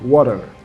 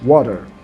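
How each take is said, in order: No difference in how they are said.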